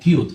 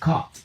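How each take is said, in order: First: The vowel sounds like the letter name U. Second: The vowel is a short uh sound. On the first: The speaker calls it wrong. "no decimos cute" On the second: The speaker calls it right. "decimos cut"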